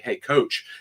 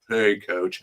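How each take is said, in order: First: It is said in a warm, affectionate tone. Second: It is said in a cold, unaffectionate tone. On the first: The speaker calls it right. "they say it with affection" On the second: The speaker calls it wrong. "as opposed to"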